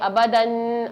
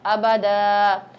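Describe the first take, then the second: First: The word ends with a short 'an'. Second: The word ends with a drawn-out 'aa'. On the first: The reading continues past the word. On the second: The reader stops on this word.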